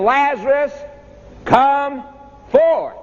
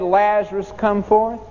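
First: A ringing pulpit command; commanding call. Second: Said in the usual way. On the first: Acted. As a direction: summon the dead man out of the tomb. Preacher voicing Jesus' call.

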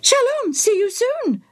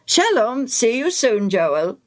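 First: High parrot squawk copying the priest. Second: Said in the usual way. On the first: Acted. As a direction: squawk it back like a parrot, much higher. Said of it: "the bird repeated".

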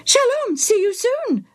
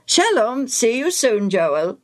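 First: Very high parrot mimicry; Bobo the parrot. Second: Lilting goodbye, high then falling; friendly farewell. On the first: Parrot repeats the priest's goodbye, squawking. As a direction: squawk the farewell back like a parrot. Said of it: "the bird repeated". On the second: Acted. Priest takes leave of Joel, friendly. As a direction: say a cheery human goodbye, dropping on the name.

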